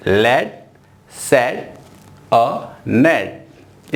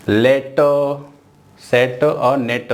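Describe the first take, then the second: First: "लेट सेट अ नेट" drawn out slowly; correct slow reading. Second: "लेट सेट और नेट" read as a flat list; wrong way to read. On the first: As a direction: model the right reading. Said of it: "इस तरह से आपको pronounce करना है।". (सही तरीका, धीरे "लेट सेट अ नेट") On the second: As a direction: demo the wrong reading. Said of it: "ऐसा नहीं पढ़ना है।". (गलत तरीके से "लेट सेट और नेट") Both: Shown as a demonstration.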